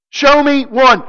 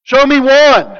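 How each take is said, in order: First: "Show me one" with "show" hit high, then falling on "one"; stress on show. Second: "Show me one" with "one" hit hard and loud, then falling; stress on one. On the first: Preacher pressing the dare again, stress on show. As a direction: lean on "show" as a challenge. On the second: Preacher repeating Jesus' dare to his opponents, stress on one. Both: Acted.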